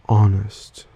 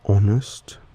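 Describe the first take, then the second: First: The first vowel has an American accent. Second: The first vowel has an Australian accent. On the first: "An American speaker would pronounce these words like" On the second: "some examples of these words are"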